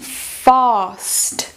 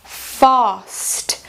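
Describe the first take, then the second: First: British accent with a long open A vowel. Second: British accent with a long open A vowel.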